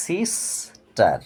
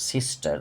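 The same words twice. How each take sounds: First: sister split slowly as "sis", pause, "tar"; teacher's slow two-beat sister, sis - tar; broken into syllables. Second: Said in the usual way. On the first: Shown as a demonstration. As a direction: stop midway through sister, after the first syllable. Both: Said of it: "রাস্তায় আমাকে থেমে যেতে হচ্ছে".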